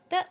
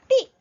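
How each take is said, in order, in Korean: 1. 가볍고 성조가 없는 'duh' 음절이에요. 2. 성조가 있는 완전한 'dee' 음절이에요. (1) "경성으로 가볍게 뜨" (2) "땅이라는 의미로 사용이 되어질 때는 발음이 띠"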